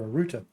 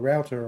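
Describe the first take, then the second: First: It is pronounced the way British people say it. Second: It is pronounced the way locals say it.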